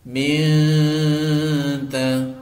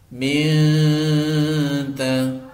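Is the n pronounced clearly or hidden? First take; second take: hidden; hidden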